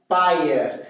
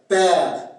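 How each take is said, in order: First: It is said in a Québécois accent. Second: It is said in a French-from-France accent. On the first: "c'est A E en accent québécois" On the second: "en français de France"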